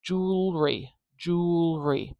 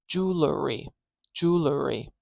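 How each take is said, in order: First: "jewelry" said in two syllables as JOOL-ree; "jewelry" with the l running straight into the r, no vowel between; "jewelry" squeezed into two syllables, JOOL-ree. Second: "jewelry" said in three syllables as JOOL-er-ee; "jewelry" with a little schwa between the l and the r; "jewelry" split into JOOL-er-ee. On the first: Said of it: "Here, I've only got two". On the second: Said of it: "suddenly we have three syllables here". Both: Shown as a demonstration.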